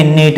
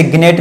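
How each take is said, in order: First: "नेट" starting straight on n; silent g. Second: "ग्नेट" with g voiced before n; misread gnat. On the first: Teacher answers what to read, "नेट" without g. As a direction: drop the g, say "नेट". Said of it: "तो इसको क्या पढ़ेंगे?". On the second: Teacher warns pupils off a misreading, "ग्नेट" with hard g. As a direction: sound the g in "ग्नेट". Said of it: "इसे ग्नेट नहीं पढ़ेंगे". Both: Shown as a demonstration.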